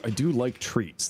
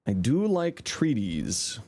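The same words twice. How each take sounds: First: Said in the usual way. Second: "treaties" said slowly as a cute silly word. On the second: Shown as a demonstration. Streamer teasing chat, slow silly "treaties". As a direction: stretch out "treaties" as a goofy twist on treats.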